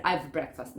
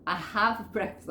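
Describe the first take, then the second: First: Lower, "I've" as one syllable; contracted "I've breakfast"; wrong contraction. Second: "have" said as a whole word; uncontracted "I have", two words; full form. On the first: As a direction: shrink "have" to a V before "breakfast". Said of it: "no puedo decir". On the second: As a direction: sound "I have breakfast" in full. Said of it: "lo tenés que decir completo". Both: Shown as a demonstration.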